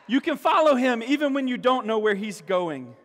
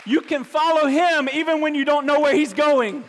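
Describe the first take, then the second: First: Said in the usual way. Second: Loud, high and ringing; ringing proclamation. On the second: Acted. Preacher urging the church to trust, loud and high. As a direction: proclaim it boldly. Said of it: "repeated softer".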